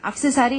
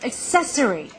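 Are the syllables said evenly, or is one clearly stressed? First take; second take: even; stressed. First: All syllables are said evenly without stress. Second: One syllable is clearly stressed over the others. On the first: The speaker calls it wrong. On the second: The speaker calls it right.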